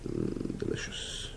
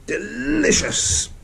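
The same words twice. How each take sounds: First: Breathy whispered delight. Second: High, slow, gleeful; excited high cheer. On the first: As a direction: whisper it to yourself. Glue bottle finally opened. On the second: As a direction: stretch it out in triumph. Pieces finally fit together. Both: Real, not acted.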